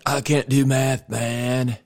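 It is said in an exaggerated stoner voice.

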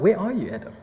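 It is said in a gentle, loving tone.

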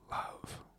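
The word is said with a vulnerable tone. "With some vulnerability"

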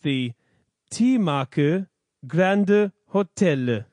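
The name is said with Korean-style pronunciation. "In Korean"

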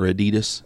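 The word has an American pronunciation.

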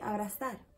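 The z is said like s, Latin American style.

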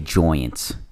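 The word is said in a New York accent. "they say Joyants"

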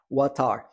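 A British accent, the T sounding like T.

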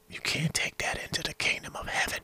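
It is whispered.

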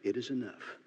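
It is said in a meek, mild tone.

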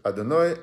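The word ends with an 'ai' sound.

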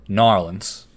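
It is said in a Louisiana accent.

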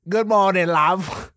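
It has an exaggerated British accent.

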